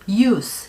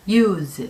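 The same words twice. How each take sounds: First: The final consonant is a hissing s sound. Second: The final consonant is a buzzing z sound. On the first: It is a noun meaning usage or purpose. "발음이 스, use 라고 될 때는 명사로" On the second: It is a verb meaning to employ something. "use 라고 했을 때는 쓰다, 사용하다"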